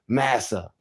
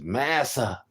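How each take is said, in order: First: It is said in the speaker's normal voice. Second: It is said in a put-on slave's voice.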